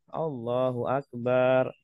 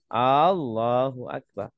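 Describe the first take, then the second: First: The vowel after b in Akbar is drawn out long. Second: The opening vowel of Allahu is drawn out long. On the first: It comes to mean God is a drum. "ba-nya dipanjangkan ya" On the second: It turns into a question asking whether God is great. "Kalau panjang ya. Jadi jangan dipanjangkan"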